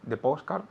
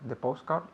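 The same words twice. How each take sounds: Both takes have the same delivery.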